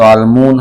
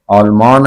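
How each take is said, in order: First: आलमून with oo wrongly replacing aa; mistaken colloquialised name. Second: आलमान keeping long aa before n; correct country name. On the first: Teacher showing what is not said, mistaken pronunciation. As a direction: end आलमून on -oon as the mistake. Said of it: "आलमून हम नहीं कहेंगे". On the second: Teacher citing a country name, correct pronunciation. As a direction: leave the -aan ending of आलमान intact. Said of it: "हम नहीं कहेंगे". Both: Shown as a demonstration.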